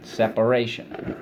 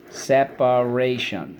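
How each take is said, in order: First: Said in the usual way. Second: Slow SEP-A-RAY-SHUN for "separation"; syllable by syllable. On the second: Shown as a demonstration. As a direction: give "separation" four measured, distinct beats. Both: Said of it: "so let's go".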